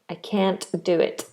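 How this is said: Can't has a short vowel like can. "but American English is can't"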